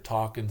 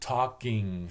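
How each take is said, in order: First: The ending is pronounced 'in' without a final g. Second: The ending is pronounced 'ing' with a final g. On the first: This is the speaker's home upper Midwest speech. "upper Midwest, It's an in, in, it's not ing" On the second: This is the form used to fit in elsewhere. "I would stand in front of the mirror and say... ing, ing, ing"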